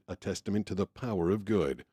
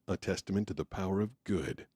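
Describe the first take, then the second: First: The emphasis falls on the word power. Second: The emphasis falls on the final word good. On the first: "Power of good" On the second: "or do you bring it in at the end?"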